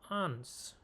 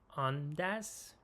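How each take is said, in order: First: It is said merged into one word. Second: It is said as two separate words. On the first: "ادغام" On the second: "میتونیم بگیم آن دس"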